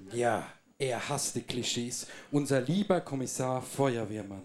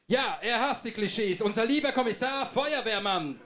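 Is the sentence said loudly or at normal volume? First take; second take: normal; loudly. First: It is said at normal speaking volume. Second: It is said loudly, with raised volume.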